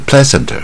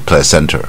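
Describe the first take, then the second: First: The stress falls on a syllable other than the second. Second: The stress falls on the second syllable. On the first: The speaker calls it wrong. "它不是placenta" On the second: The speaker calls it right. "这个是第二个音节，是placenta"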